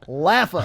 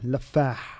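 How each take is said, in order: First: It is said with an American accent. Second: It is said with an Arabic accent. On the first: "an American accent" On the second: "In Arabic, it's uh"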